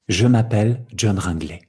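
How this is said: The words run together as one chain. This is how the spoken language sounds. "Tất cả kết nối, une chaîne de syllabes"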